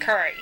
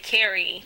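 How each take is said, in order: First: The first vowel sounds like the u in curry. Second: The first vowel sounds like the a in cat. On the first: This is how locals say it. "Now I sound like a Baltimorean" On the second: This is how people from elsewhere say it. "But if I say carry... You don't sound Baltimore"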